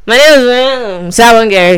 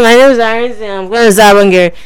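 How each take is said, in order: First: Imitating caller again. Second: Mock mumbling caller voice; imitating caller. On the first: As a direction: drag it out like a bad phone line. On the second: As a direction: mimic the caller's muffled mumble. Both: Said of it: "That's how you sound".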